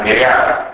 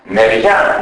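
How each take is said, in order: First: "μοιριά" as mirea, ending in separate vowels; incomplete synizesis. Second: Said in the usual way. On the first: Shown as a demonstration. Lecturer showing dialect, "μοιριά" ending e-a. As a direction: open the glide of "μοιριά" into e-a. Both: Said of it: "το φαινόμενο της ατελούς συνείδησης".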